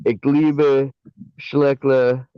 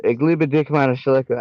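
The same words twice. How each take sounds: First: Saying "Ich liebe Schleckler" in German for the dog; sweet German "Ich liebe Schleckler"; German phrase demo. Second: "Ich liebe dich, meine Schleckler" said in German; fond German "Ich liebe dich, meine Schleckler"; German phrase demo. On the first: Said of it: "you gotta say". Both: Shown as a demonstration.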